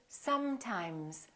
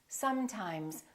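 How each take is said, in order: First: The continuant sounds are held long. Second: The same.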